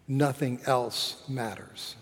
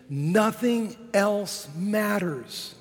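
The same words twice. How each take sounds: First: Low, softer, falling away; sombre conclusion. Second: High, very slow and drawn out; uplifted declaration. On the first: Preacher quoting a scholar on Christ not risen, sombre. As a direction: let "nothing else matters" sink quietly. Bleak half of quoted saying. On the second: Preacher quoting a scholar on Christ risen, uplifted. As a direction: stretch "nothing else matters", held high. Hopeful half of quoted saying. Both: Shown as a demonstration.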